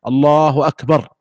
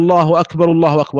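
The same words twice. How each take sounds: First: Slow الله أكبر, final r vowelless and halted; stopped with sukun. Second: First أكبر said akbaru, linked straight into the next الله; joined with case ending. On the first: Teacher showing the right way, stopping on sukun. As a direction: draw out الله, then close أكبر on a bare r. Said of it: "وإنما يقف". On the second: Teacher showing what to avoid, inflected joined takbirs. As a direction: run both الله أكبر together with a u ending. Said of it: "يعني لا يقول". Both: Shown as a demonstration.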